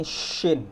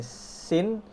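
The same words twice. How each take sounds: First: "shin" with long hushing sh; thick-hushed "shin"; shooing sh. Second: "sin" very slowly with thin s; slow rising "sin"; ordinary S. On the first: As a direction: stretch the sh of "shin", then fall. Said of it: "kayak lagi ngusir ayam". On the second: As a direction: stretch a clean S in "sin". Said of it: "Sin ini seperti ngomong S biasa". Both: Shown as a demonstration.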